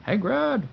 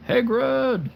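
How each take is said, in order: First: A lightly voiced Dumbledore, high and called out; Dumbledore impression. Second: High, loud wizard call of the name; a better try, calling out like an old wizard; Dumbledore impression. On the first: A lightly voiced Dumbledore calling to Hagrid. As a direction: call the name like the old wizard, half-joking. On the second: A higher, louder second try at Dumbledore calling Hagrid. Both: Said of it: "That's my best, uh, Dumbledore impression".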